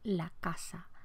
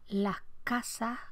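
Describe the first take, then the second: First: The final s sounds are left out entirely. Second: The final s sounds are breathed like an h. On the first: "con grado cero fonético, pérdida total de la, de la S" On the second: "con aspiración"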